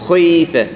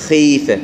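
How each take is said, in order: First: "خيفة" with a rounded, dark kh like "khwee"; over-heavy kha. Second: "خيفة" slow, with a clean long ee; lightened kha. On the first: Teacher showing the exaggeration, very dark kh. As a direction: thicken and round the start of "خيفة". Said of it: "المبالغة في تفخيمها وهي مكسورة". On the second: Teacher correcting the exaggeration, light slow kh. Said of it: "لا، خيفة". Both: Shown as a demonstration.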